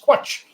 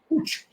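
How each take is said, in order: First: The word begins with a 'kw' sound. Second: The word begins with a plain 'k' sound. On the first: The speaker calls it wrong. "I assumed it was" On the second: The speaker calls it right. "I was corrected by a Welsh person"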